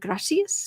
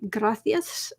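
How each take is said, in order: First: The middle consonant is a plain s sound. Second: The middle consonant is a lisped th sound. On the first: It is how it is said in Mexico. "which they say in Mexico" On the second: It is how it is said in Spain. "in Spain, how how they say gracias ... That the th"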